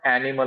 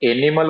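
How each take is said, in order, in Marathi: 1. हा शब्द 'a' स्वराने सुरू होतो. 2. हा शब्द 'e' स्वराने सुरू होतो. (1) "ॲ पासून जरी सुरुवात केली" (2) "ए पासून सुरुवात झाली"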